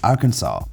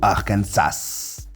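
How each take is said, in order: First: The final S is silent. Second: The final S is pronounced. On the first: The speaker calls it right. "il n'y a qu'une seule façon de prononcer le nom de l'état, et c'est Arkansas" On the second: The speaker calls it wrong. "ou Arkansas"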